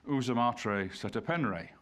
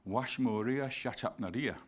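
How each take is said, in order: First: The name starts with 'oo' and uses plain 'e' vowels. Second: The name starts with 'wa' and uses 'a' vowels. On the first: This is the conventional modern scholarly rendering. "we insert the letter E wherever we don't, we don't know the, the actual value of a vowel" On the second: This is how it sounded to ancient foreign clerks. "it doesn't sound like that at all. It sounds like"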